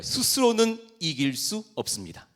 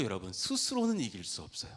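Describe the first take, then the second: First: 스스로는 called out high and loud; high, loud preacher's call with weight on 스스로는; line to repeat. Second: Said in the usual way. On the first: Shown as a demonstration. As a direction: lead the congregation, hitting 스스로는 hard. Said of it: "한번 따라해봐요".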